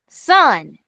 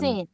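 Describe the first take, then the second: First: The syllable is said with the vowel of 'son'. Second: The syllable is said with the vowel of 'sin'. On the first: The speaker calls it right. "Son, not" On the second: The speaker calls it wrong. "not sin"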